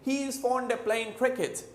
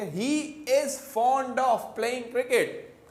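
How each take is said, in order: First: 'Of' is reduced and the final g dropped, fast. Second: Every word is said fully and carefully. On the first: This is an informal casual form. "मगर वो क्या बोलेंगे? ... Speed में बोलेंगे" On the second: This is the standard careful form. "हम बोलेंगे"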